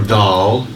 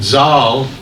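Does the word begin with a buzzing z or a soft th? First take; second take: th; z. First: It begins with a soft voiced th sound. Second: It begins with a buzzing z sound. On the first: "the D H sound" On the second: "with the Z sound"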